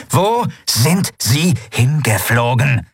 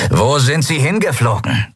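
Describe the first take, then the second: First: Slow, each syllable of „Wo sind sie hingeflogen?“ hit sharply; every syllable stressed. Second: Growled. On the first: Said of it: "jede Silbe scharf betonend". („Wo sind sie hingeflogen?“ langsam, jede Silbe scharf betont) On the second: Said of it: "knurrte Ruka". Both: Acted.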